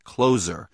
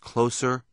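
First: The middle consonant is a buzzing z sound. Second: The middle consonant is a hissing s sound. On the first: The speaker calls it wrong. "not Closer, which I guess would be a sequel to Glengarry Glen Ross" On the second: The speaker calls it right. "it's pronounced Closer"

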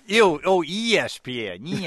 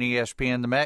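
First: The stress is on the first letter. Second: The stress is not on the first letter. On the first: The speaker calls it right. "Accent on the E" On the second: The speaker calls it wrong. "You're going to have to work on your inflection"

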